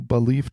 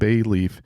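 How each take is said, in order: First: The name sounds like the word belief. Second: The name sounds like the words bay leaf. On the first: The speaker calls it right. "I do want to pronounce it right" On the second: The speaker calls it wrong. "I think I might have called it Bayleaf in the past. Well, I've been pronouncing it wrong"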